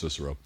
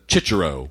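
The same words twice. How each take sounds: First: The name is said with an English pronunciation. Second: The name is said with an Italian pronunciation. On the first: "I'm going to go with Cicero" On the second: "I have an Italian friend ... and he pronounces it Cicero"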